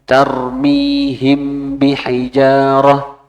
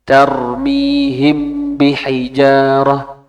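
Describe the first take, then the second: No difference in how they are said.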